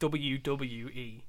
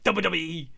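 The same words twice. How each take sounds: First: It is said slowly and clearly enunciated. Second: It is said fast, like Jericho.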